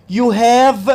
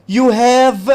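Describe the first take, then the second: The two takes are said the same way.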